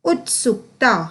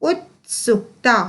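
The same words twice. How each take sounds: Both takes have the same delivery.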